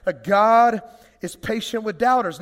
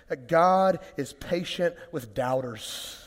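First: Repeated louder with more push on "God is patient". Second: Slow, weighty, each word given its own stress; slow emphatic statement. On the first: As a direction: say "That God is patient with doubters." again to wake the room. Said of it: "Ten o'clock?". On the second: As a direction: lay down "That God is patient with doubters." slowly and firmly. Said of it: "Come on, that's good news". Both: Shown as a demonstration.

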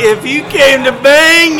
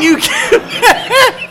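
First: Said in the usual way. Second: High, slow and leering, laughing; creepy sexual voice. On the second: Acted. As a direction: drag it out like a creep coming on. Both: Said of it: "it was real sexual, like, and creepy".

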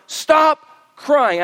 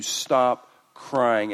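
First: Loud, high stern order; stern command. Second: Said in the usual way. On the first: Retold or imitated. Elder commanding John to stop, loud and stern. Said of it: "he commands John". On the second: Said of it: "someone says to you".

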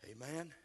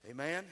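First: Said in the usual way. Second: Calling Amen? out louder to the room. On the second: Shown as a demonstration. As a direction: pull a response from the congregation.

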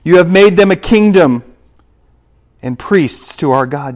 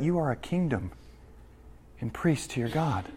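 First: Louder proclaiming take; preaching scripture. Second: Much softer, turned to the listeners; quiet personal repeat. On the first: Preacher proclaims the verse to his congregation, loud. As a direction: ring it out over the church. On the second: Preacher applies the verse to his church, softly. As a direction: bring it down and speak it to them directly. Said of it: "Do you hear that?". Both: Acted.

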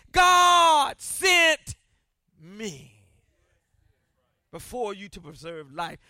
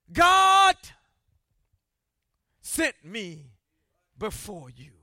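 First: Emphatic preacher quote; God sent shouted. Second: Preacher repeating the key line for emphasis; slow emphatic repeat. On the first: Acted. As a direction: punch God sent, drop the rest. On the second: Shown as a demonstration. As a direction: hit God hard, let the rest fall away. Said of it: "Did you get that?".

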